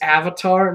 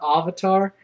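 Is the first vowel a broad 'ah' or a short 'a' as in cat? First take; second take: short a; broad ah. First: The first vowel is a short 'a' as in cat. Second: The first vowel is a broad 'ah' sound. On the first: The speaker calls it right. "It's an A" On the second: The speaker calls it wrong. "not an O"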